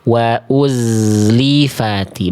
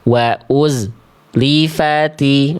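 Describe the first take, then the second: First: The z flows straight into the next sound. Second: A silent gap breaks off after the z. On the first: The speaker calls it right. "Betul-betul z-nya ngalir tanpa jeda ke huruf berikutnya" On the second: The speaker calls it wrong. "Gak boleh ada jarak jeda hening dulu. Wa uz lifati, nah, enggak"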